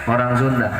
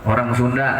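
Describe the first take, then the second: The two takes are said the same way.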